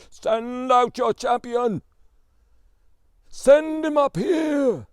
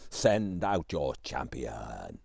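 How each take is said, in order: First: Huge, slow, booming giant roar, much higher and louder; giant bellowing. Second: Very slow, much lower, rumbling giant voice; deep giant growl. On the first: Giant on the mountain challenging the Tsar's palace, bellowing. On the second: Giant repeating his challenge to the palace, slow low growl. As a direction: drag it out low and menacing. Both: A narrator's reading. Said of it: "bellowing at the top of his voice".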